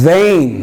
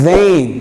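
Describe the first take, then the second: The two takes are said the same way.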